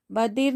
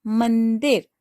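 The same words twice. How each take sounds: First: "बदिर" said without the nasal, as ba-dir; teacher showing the wrong form "बदिर" with no nasal; wrong word shown. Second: "मंदिर" with a nasal n after m; teacher gives students the right form "मंदिर" with nasal; correct nasal. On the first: गलत उच्चारण "बदिर" बिना अनुस्वार. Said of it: "बदिर नहीं होता है". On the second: सही उच्चारण "मंदिर" अनुस्वार के साथ. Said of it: "म के ऊपर अंग की बिंदी". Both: Shown as a demonstration.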